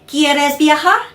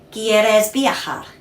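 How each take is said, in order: First: It is said as a question. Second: It is said as a statement.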